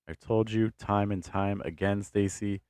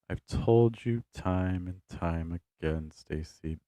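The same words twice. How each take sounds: First: The pitch stays level across the phrases. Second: The pitch steps lower with each new phrase. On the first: The speaker calls it wrong. "that's going to sound very flat" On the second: The speaker calls it right. "Like that movement down, down, down, down, down"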